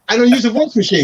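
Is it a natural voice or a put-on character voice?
natural. It is said in his natural voice.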